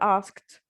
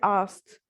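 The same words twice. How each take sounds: First: The k sound is clearly pronounced in the word. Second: The k sound is dropped from the word. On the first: "not asked" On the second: "بيحذفوا الكي sound بتصير she asked okay asked"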